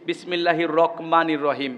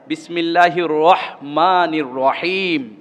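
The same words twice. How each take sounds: First: A K sound follows the R in rahmanir. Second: An H sound follows the R in rahmanir. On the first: The speaker calls it wrong. "রক রক রয়ের পরে ক উচ্চারণ করি" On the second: The speaker calls it right. "ক না, ... হ হ"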